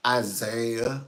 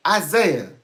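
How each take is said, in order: First: "Isaiah" at an ordinary pitch, rising at the end; mild questioning call. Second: Loud, high ISAIAH with a falling end; parent's stern call. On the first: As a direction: say "Isaiah" slower, lifting the last syllable like a question. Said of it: "They wouldn't say". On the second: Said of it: "that's actually when they would say". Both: Retold or imitated.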